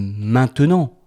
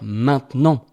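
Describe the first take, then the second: First: Every syllable of the word is pronounced fully. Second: The middle syllable of the word is dropped. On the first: "On peut le dire" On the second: "mais souvent on va dire"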